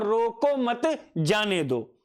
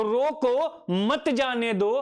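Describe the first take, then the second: First: Slow "रोको मत" as one group, then "जाने दो"; pause after मत. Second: Slow "रोको", a break, then "मत जाने दो" together; pause after रोको. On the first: Teacher contrasting two meanings, pause after "मत". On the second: Teacher contrasting two meanings, pause after "रोको". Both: Shown as a demonstration. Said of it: "कंठ ध्वनि के कारण".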